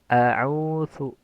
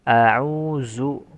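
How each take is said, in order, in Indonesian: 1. Konsonan tengahnya bunyi th yang ringan. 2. Konsonan tengahnya bunyi z yang mendengung. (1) "Jangan juga mengganti dengan sa. ... terlalu ringan" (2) "Atau menjadi zai"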